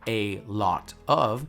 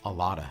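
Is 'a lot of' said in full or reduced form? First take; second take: full; reduced. First: All three words are said separately and fully. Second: The words blend into one reduced word. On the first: "instead of saying a lot of" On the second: "you say a lotta"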